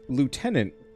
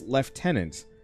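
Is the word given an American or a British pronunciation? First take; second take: American; British. First: It uses an American pronunciation. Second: It uses a British pronunciation. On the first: "I'd never heard of Lieutenant" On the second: "it's a very European, specifically, you know, British way of pronouncing it"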